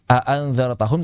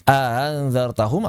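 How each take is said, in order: First: The second hamzah is pronounced fully and sharply. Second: The second hamzah is softened and lightened. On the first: This is not the Madinah reading. "Tidak dibaca" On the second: This is the Madinah reading. "menggunakan tashil"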